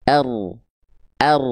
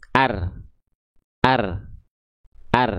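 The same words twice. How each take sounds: First: Heavy "R" from a raised tongue root; R tebal. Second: Thin "R", tongue root left down; R tipis. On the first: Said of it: "dilafalkan dengan mengangkat bagian pangkal lidah". ("R" tebal, pangkal lidah naik) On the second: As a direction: keep the tongue back low on "R". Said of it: "Kalau dia nggak naik". ("R" tipis, pangkal lidah tidak naik) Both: Shown as a demonstration.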